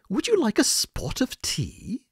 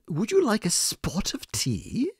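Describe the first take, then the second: First: It is said in a put-on British accent. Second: The same.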